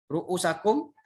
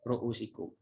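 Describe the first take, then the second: First: The vowel before -kum is 'a'. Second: The vowel before -kum is 'i'. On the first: The hair must be made wet. "ada yang membaca ... dibaca di atas ru'usakum" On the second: The hair is only wiped. "ada yang membaca ru'usikum"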